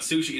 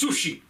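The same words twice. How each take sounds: First: The word is said with a plain English pronunciation. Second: The word is said with a put-on foreign accent. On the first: The speaker calls it wrong. "it's not sushi" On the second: The speaker calls it right. "put an accent on it and just like pronounce the words correctly"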